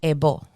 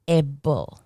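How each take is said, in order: First: It is pronounced the Spanish way. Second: It is pronounced the English way.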